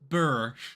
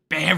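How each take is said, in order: First: The vowel sounds like the one in 'fur'. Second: The vowel sounds like the one in 'hair'. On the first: "I don't know where you guys get Burr rune from" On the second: "My brain naturally just wants to say bear"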